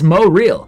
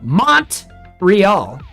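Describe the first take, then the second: First: The T in the middle is dropped. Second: The T in the middle is pronounced. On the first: "Montreal is Mo Real" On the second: "more American and say the T"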